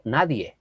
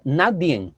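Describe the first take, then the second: First: Said in the usual way. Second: "nadie" said as "nadien" with an extra n at the end; wrong pronunciation. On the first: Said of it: "por decir nadie". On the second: Shown as a demonstration. Preacher imitates people who say "nadien" for "nadie". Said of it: "personas decir nadie".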